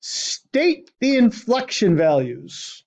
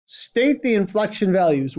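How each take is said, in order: First: Reading the task out slowly, word by word; slow dictation. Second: Said in the usual way. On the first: Shown as a demonstration. Teacher reads the question to the class, slowly. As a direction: spell it out slowly so students can copy.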